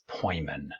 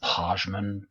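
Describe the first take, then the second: First: The name is said like 'Poyman'. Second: The name is said like 'Pajman'. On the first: The speaker calls it right. "but it's Poyman" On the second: The speaker calls it wrong. "for a while, I was pronouncing this Pajman"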